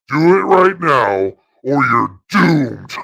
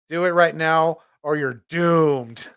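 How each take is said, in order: First: It is said in a put-on voice. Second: It is said in his normal voice.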